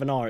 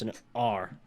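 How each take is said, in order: First: R as a soft open "ah"; R left open, unrolled; plain southern R. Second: R with a hard rhotic "arr"; low, quieter R drawn into "arr"; West Country R. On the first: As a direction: say R without sounding the final r. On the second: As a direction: sound the r in R fully. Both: Shown as a demonstration. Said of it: "instead of an R, it's an R".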